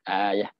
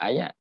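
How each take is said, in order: First: The word ends with an h sound. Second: The word ends with a t sound. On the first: "Orang putih dia kata ayah" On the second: "kita sebut ayat"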